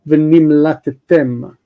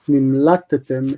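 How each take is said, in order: First: The stress falls on the last syllable. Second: The stress falls before the last syllable. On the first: The speaker calls it right. "You have to stress the last part" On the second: The speaker calls it wrong. "today people would say nimlatetem, nimlatetem, it is a mistake"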